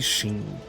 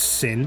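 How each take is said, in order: First: The name begins with an sh sound. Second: The name begins with an s sound. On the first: "but they say Sheen" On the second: "It's Sin"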